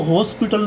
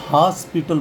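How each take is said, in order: First: हॉस्पिटल with a round "o", hospital as "hoh-spital"; wrong pronunciation. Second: हॉस्पिटल with open "aa", haaspital; corrected pronunciation. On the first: Teacher shows students what not to say, wrong pronunciation. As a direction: round the first vowel of हॉस्पिटल to "ho". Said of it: "इसको हॉस्पिटल नहीं बोलेंगे". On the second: Teacher gives students the right form, corrected pronunciation. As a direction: open the first vowel of हॉस्पिटल to "haa". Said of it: "हॉस्पिटल बोलेंगे". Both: Shown as a demonstration.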